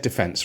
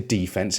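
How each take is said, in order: First: It is said the British way. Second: It is said the American way. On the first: "I'm going to say defense, right? ... I'm not American" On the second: "I'm not going to say defense"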